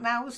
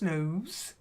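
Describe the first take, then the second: First: The vowel sounds like the vowel in 'now'. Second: The vowel sounds like the vowel in 'no'. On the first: The speaker calls it wrong. "Not nows" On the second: The speaker calls it right.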